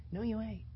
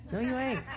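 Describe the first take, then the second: First: Said in the usual way. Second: "No, you ain't" said with a laugh. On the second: Real, not acted. Preacher rebuts the ad with a laugh.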